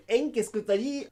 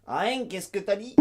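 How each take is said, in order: First: Said in the usual way. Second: « hein » dit « a-ain »; nasale diphtonguée. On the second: Shown as a demonstration. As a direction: glisser de A vers IN au début : A N. (« a-ain » à la québécoise) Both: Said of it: "Au lieu de dire N".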